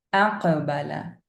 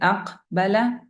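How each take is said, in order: First: The q sound is released with a slight bounce. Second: The q sound is stopped with no bounce. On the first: The speaker calls it right. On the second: The speaker calls it wrong.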